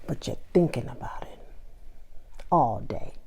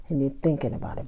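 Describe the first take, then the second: First: Hushed knowing whisper, quick; teasing whisper. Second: Said in the usual way. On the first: Real, not acted. To listeners caring about the party, a teasing whisper. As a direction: let them in on a secret.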